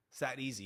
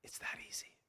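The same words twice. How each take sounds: First: Said in the usual way. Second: Soft whispered aside. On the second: Shown as a demonstration. Coach confiding to viewers how simple it is, whispered. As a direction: breathe it out as a secret.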